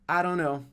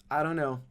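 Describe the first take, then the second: No difference in how they are said.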